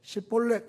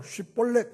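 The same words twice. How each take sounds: First: 십볼렛 said with a plain s, no sh sound; wrong shibboleth. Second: 쉽볼렛 said with a clear aspirated sh at the start; correct shibboleth. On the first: An Ephraimite failing the test, saying 십볼렛 with plain s. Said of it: "이 발음이 안 돼요". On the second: A man passing the river guards, saying 쉽볼렛 carefully. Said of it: "이렇게 발음하면 통과해요". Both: Shown as a demonstration.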